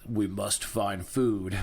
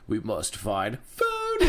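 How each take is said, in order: First: The word food is said at normal pitch. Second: The word food cracks into a high squeak.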